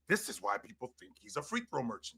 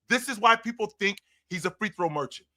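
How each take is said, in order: First: It is said in a scornful, hateful tone. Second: It is said in a neutral, even tone.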